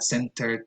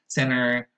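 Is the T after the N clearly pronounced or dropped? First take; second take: pronounced; dropped. First: The T after the N is clearly pronounced. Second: The T after the N disappears. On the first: "and not" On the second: "becomes an N"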